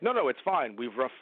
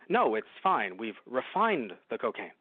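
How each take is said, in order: First: It is said in a Picard impression. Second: It is said in a Kirk impression.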